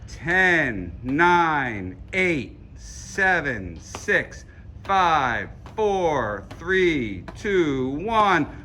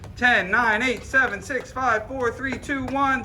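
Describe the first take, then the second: First: The countdown is said very slowly. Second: The countdown is said at normal speed.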